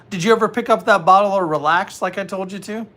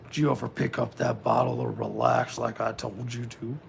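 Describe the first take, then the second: First: It is said in a normal speaking voice. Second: It is said in a put-on creepy voice.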